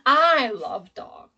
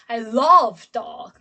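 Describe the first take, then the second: First: The stress falls on the word I. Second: The stress falls on the word love. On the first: The speaker, not someone else, loves dogs. "my emphasis and my stress is on I in this sentence" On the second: The speaker loves dogs rather than hating them. "my stress is on love"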